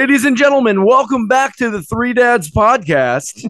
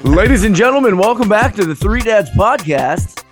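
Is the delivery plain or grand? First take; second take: grand; plain. First: It is said in a grander, more emphatic way. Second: It is said plainly, without much grandeur.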